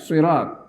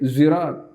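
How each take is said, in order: First: It begins with a heavy, emphatic s sound. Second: It begins with a buzzing z sound. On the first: "bisa dibaca pakai si, pakai shot ya" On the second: "Ada yang membaca lagi pakai zirat"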